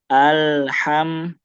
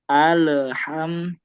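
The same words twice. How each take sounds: First: The L sound flows smoothly into the next. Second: The L sound bounces and is pulled out. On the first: The speaker calls it right. "dia tidak boleh memantul ya karena dia mengalir" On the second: The speaker calls it wrong. "dia memantulkan lamnya itu. Jadi agak ketarik lagi"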